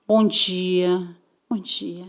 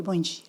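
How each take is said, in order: First: Soft, dainty good morning; a prim, gentle bom dia; delicate greeting. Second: Said in the usual way. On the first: Retold or imitated. Recruiter greets them in a soft, delicate voice. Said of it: "Bem delicadinha".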